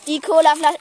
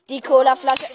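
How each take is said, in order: First: It is said in a normal speaking voice. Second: It is said in a put-on reporter voice.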